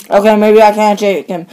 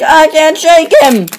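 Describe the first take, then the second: First: Said in the usual way. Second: Hurried, higher and urgent; panicky plea. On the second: Acted. Truck hooked by an enemy pleads with his buddy in panic. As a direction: beg for help as the enemy clings.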